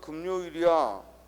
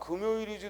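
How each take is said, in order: First: An extra n sound is inserted before 요. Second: The word is said without an added n sound. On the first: This is a regional pronunciation. The speaker calls it wrong. "누가 금요일이야" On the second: This is the standard pronunciation. The speaker calls it right. "금요일이지 누가"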